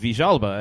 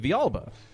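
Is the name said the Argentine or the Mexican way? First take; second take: Argentine; Mexican. First: It is said with an Argentine (Rioplatense) accent. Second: It is said with a Mexican Spanish accent.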